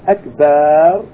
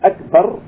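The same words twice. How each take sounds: First: The vowel after b is drawn out long. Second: The vowel after b is kept short. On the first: The speaker calls it wrong. "elongating the ba by putting an alif" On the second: The speaker calls it right. "shortening it, making it short"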